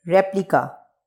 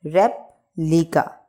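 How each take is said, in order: First: Said in the usual way. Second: replica slowly split as rep, pause, lika; two separate parts in replica; broken into syllables. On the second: Shown as a demonstration. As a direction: leave a gap after rep in replica. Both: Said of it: "इसको pronunciate कर लेते हैं".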